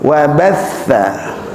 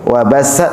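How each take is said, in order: First: The middle consonant is a soft th sound. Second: The middle consonant is a hissing s sound. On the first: The speaker calls it right. "Wa batha, tha" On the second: The speaker calls it wrong. "Wa bassa, sin"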